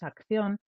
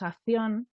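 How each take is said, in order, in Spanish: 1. El sonido k antes de 'ción' se pronuncia. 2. El sonido k antes de 'ción' se omite. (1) "y no es acción, es acción" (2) "nos comemos consonantes, cuando hay dos juntas, decimos acción"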